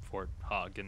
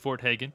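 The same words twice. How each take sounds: First: Hagen is said with a non-American pronunciation. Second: Hagen is said with the American pronunciation. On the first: Someone else says it this way. The speaker calls it wrong. "as like my boy Mini, a true nerd, calls it" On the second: This is the proper American way to say it. The speaker calls it right. "definitely Fort Hagen, because America"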